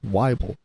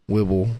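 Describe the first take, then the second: First: The first syllable rhymes with Bible. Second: The first vowel does not rhyme with Bible. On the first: The speaker calls it right. "but it's Weibel. ... it's like Bible" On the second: The speaker calls it wrong. "I've had my last name pronounced wrong"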